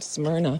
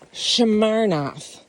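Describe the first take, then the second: First: It begins with a plain s sound. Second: It begins with a sh sound. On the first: "S M, like the sound" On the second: "she goes, it's Shamarnoff"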